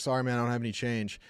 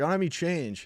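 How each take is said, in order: First: Said in the usual way. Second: Higher, repeating I don't have any change over a barking dog; raised over barking. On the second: Retold or imitated. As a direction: say it up and over the noise. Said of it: "he couldn't hear over Clue barking".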